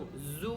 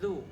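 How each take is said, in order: First: It starts with a buzzing z sound. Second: It starts with the tongue between the teeth. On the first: The speaker calls it wrong. "ज़ु नहीं पढ़ना" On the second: The speaker calls it right. "ज़ुबान को ज़ु दोनों दांतों के दरमियान हल्का सा बाहर निकाल के"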